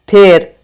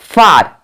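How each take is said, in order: First: The vowel is an 'e' sound as in bed. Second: The vowel is an open 'aa' sound. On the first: The speaker calls it wrong. "फार को अगर आप फेर पढ़ोगे" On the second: The speaker calls it right. "फार होता है"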